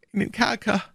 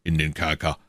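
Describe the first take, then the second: First: High, wailing prisoner voice; despairing echo. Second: Lightly voiced, level official; matter-of-fact commissioner. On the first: Acted. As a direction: repeat the order in high-pitched misery. Prisoner despairingly echoes the order. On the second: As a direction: state the order evenly. Commissioner gives an order.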